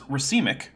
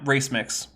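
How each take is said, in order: First: It is said as one word, ruh-see-mik. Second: It is said as two words, race mix. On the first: The speaker calls it right. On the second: The speaker calls it wrong.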